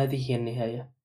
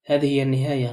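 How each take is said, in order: First: Soft, resigned acceptance; accepting. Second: Understated threatening growl; menacing. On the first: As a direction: let it fall softly, as if welcoming it. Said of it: "كان قد قالها بقبول". (بصوت خافت فيه قبول واستسلام) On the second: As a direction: deliver it as a firm, contained threat. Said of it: "متوعدا بصوت كالزمجرة". (بنبرة وعيد مكتومة) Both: A narrator's reading.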